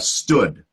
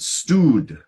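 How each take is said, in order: First: The vowel is short, like in foot. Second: The vowel is long, like in booth. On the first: The speaker calls it right. "It's not the same as booth. It's more like foot" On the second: The speaker calls it wrong. "So you said stewed"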